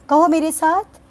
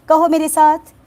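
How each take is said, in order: The two takes are said the same way.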